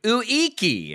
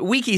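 First: The name is said in an imitated American way. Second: The name is said plainly in the speaker's voice. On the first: The speaker calls it wrong. "American person saying, like, Uiki. And I was like, that can't be right" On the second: The speaker calls it right. "Wiki seems like maybe the most likely"

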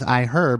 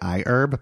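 First: The H sound at the start of herb is pronounced. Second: The H sound at the start of herb is dropped. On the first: "asking me to pronounce the H in iHerb" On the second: "I really want to say iHerb"

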